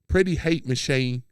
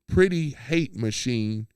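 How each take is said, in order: First: It is said in a put-on Australian accent. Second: It is said in the speaker's ordinary accent.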